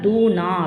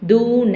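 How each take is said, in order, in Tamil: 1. இறுதி உயிரெழுத்து நெடில். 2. இறுதி உயிரெழுத்து குறில். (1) "சில பேர் என்ன பண்ணால் தூ நா அப்படின்னு சொல்லி படிப்பாங்க" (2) "தூ ந அப்படின்னு சொல்லி தான் இந்த வார்த்தையோடைய உச்சரிப்பு இருக்கணுமே"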